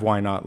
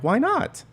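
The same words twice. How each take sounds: First: Said in the usual way. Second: Why not with a sharp high rise; light why not. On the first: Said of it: "That kind of". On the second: Shown as a demonstration. Asking yourself the question lightly, sharply rising why not. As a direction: toss it off as an easy, high question. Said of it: "It's more like".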